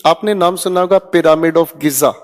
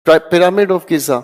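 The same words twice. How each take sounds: First: Said in the usual way. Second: Pyramid of Giza said very slowly, each word drawn out; slow and spelled out. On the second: Shown as a demonstration. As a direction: lay out pyramid of Giza slowly so students catch it. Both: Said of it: "जी I Z A".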